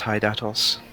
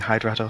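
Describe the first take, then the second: First: The name has no r sound after d. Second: The name has an r sound after d. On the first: The speaker calls it right. "it's Hydatos" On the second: The speaker calls it wrong. "everyone's been saying Hydratos"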